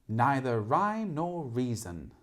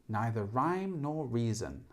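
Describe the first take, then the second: No difference in how they are said.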